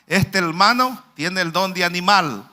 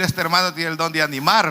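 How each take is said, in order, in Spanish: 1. La última palabra termina en sonido de L. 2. La última palabra termina en sonido de R. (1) "no pronunciaba la R, ¿verdad? Y sino que la L" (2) "él quería decir"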